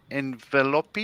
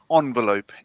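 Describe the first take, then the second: First: Envelope said as en-VEL-op-ee, questioning; "envelope" stretched into an extra syllable, rising; joke mispronunciation. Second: Envelope said as ON-velope; "envelope", opening like French "en"; French-style first vowel. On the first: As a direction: say envelope with a sounded final e. Tries a joke pronunciation, questioning. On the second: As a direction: say envelope with "on" at the start. Reads Tiff's answer, contrasting pronunciations. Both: Shown as a demonstration.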